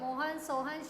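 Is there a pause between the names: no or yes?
no. The names run together without a pause. The speaker calls it wrong. "इन चार नामों को लगातार ना बोलकर"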